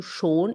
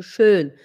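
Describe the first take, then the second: First: "schon" with a pure long o; contrasted vowel. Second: "schön" with front rounded ö; contrasted vowel. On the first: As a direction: say "schon" with back rounded o, not ö. (vogal "o" bem marcada) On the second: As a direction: say "schön" with long ö, lips rounded. (vogal "ö" bem marcada) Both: Shown as a demonstration. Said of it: "Existe o schon e existe o schön".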